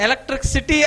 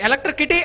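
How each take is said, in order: First: The last part starts with an s sound. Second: The last part starts with a k sound. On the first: The speaker calls it right. "అలా కాదురా నాన్న electric సిటీ అని అన్నాడట" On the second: The speaker calls it wrong. "మరలా ఏమన్నంటే electric కిటీ అని అన్నాడట"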